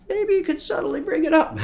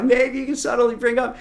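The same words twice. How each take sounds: First: Much higher, playfully delicate voice. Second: High and louder, amused repeat; laugh, then push it out high and louder. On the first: Coach advising a subtle mention of hobbies, playful high voice. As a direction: lift it high as a coy suggestion. Jokey sing-song on "subtly. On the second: Coach repeating his advice after a laugh, amused high voice. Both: Shown as a demonstration.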